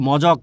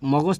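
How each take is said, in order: First: The j sound comes before the k sound. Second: The g sound comes before the j sound. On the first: "মজক অনেকেই বলে মজক" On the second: "মগজ থেকে মজক"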